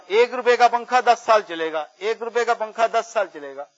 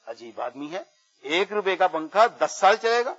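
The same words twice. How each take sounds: First: Raised, repeated sales cry; imitated street hawker. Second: Put-on mildly incredulous old woman's query; retold disbelieving question. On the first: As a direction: pitch it like a fan seller. Street seller hawking fans. (پنکھے والے کی نقلی صدا) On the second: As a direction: echo the claim, rising at the end. Old woman wonders at the claim. (بڑھیا کا ہلکی حیرت بھرا سوال)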